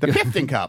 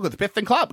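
First: The s sound is said with a lisp. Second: The s sound is said clearly, without a lisp.

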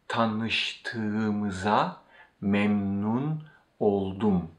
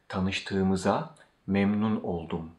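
First: It is said slowly. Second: It is said at normal speed.

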